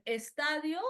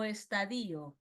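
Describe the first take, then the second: First: "estadio" stressed on TA; first option, slow "estadio" with stress on TA. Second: "estadio" stressed on the I; second option, slow "estadio" with stress on DI. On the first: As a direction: say "estadio" as es-TÁ-dio. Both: Shown as a demonstration. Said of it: "no, estadio".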